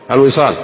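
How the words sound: It is said with a flat, answering statement tune. It gives an answer. "هذه النغمة إيش؟ جوابية"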